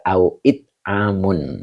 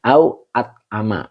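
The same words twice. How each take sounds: First: It with an i and Amun ending in un; reading Au It Amun. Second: At Ama with an open a on each syllable; reading Au At Ama. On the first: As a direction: give Au It Amun as the other reading. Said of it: "ada juga". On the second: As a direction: give Au At Ama as one reading. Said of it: "Kemudian ada bacanya". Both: Shown as a demonstration.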